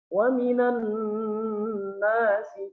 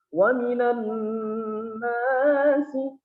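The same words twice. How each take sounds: First: The long vowel lasts one short beat. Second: The long vowel is drawn out well beyond one beat. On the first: The speaker calls it right. "cukup satu kali ayunan" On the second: The speaker calls it wrong. "Lebih dari satu ayunan"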